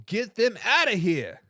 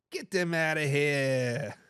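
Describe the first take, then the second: First: Said in the usual way. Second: Put-on slow, low Boston accent, drawn-out last word. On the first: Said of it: "That was my best bo". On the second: Host redoing a viewer's comment in a Boston accent. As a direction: put on your best Boston accent, softer and slower. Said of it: "best Boston accent I can get".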